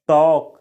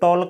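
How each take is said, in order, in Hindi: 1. शब्द में L की ध्वनि नहीं बोली जाती है। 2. शब्द में L की ध्वनि बोली जाती है। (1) "एल का उच्चारण नहीं होता है दोस्तों, इसको बोला जाता है टॉक" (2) "टॉल्क नहीं बोला जाता है"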